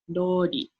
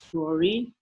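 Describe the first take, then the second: First: The R is a blend of R and L. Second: The R is a plain English R sound. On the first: The speaker calls it right. "It's kind of a mix between an R and an L" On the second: The speaker calls it wrong. "it's not rori"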